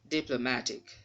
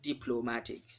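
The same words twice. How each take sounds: First: The main stress falls on the syllable ma. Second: The main stress falls on the syllable plo. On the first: The speaker calls it right. "It should be diplomatic" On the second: The speaker calls it wrong. "if you pronounce it as plo, you'll be wrong"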